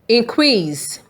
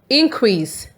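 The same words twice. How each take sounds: First: The stress is on the second syllable. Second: The stress is on the first syllable. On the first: It means to make something greater. "When the stress is on C R E A S E" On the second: It means a rise in amount. "When the stress is on the I N"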